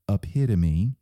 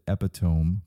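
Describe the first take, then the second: First: The word gets its standard spoken pronunciation. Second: The word is pronounced as its spelling suggests. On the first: The speaker calls it right. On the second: The speaker calls it wrong.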